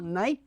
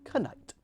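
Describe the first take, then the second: First: The word starts with a plain n sound. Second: The word starts with a sounded k before n.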